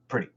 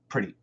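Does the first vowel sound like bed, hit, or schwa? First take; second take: schwa; schwa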